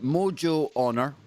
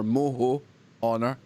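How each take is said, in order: First: The middle consonant is an English J sound. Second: The middle consonant is an H sound. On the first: "depending how you pronounce it" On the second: "the J is pronounced as an H"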